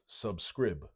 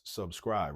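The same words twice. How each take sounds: First: The last syllable has a short i vowel. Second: The last syllable has a long i vowel. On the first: The speaker calls it wrong. "Or else it will be pronounced subscribe" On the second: The speaker calls it right. "that's a long I"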